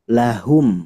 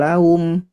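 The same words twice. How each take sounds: First: The h sound is strong and clearly heard. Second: The h sound is weak and barely heard. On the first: The speaker calls it right. "penguatan di huruf H ya ... tapi lahum" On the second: The speaker calls it wrong. "tidak lahum"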